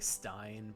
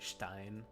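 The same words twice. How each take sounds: First: It is said with an American accent. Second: It is said with a German accent.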